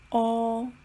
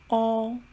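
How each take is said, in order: First: It sounds like the Chinese pinyin vowel. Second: It sounds like the Chinese pinyin vowel.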